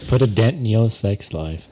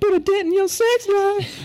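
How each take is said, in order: First: It is said in a normal speaking voice. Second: It is said in a high falsetto voice.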